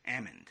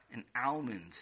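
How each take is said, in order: First: Almond said as "amond", L dropped; almond without the L. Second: Almond said with a clear L, "AL-mund". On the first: Acted. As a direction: say Almond like "AH-mund", no L. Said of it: "Tati says almond". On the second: Shown as a demonstration. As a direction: say almond sounding the L. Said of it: "I think he means an almond".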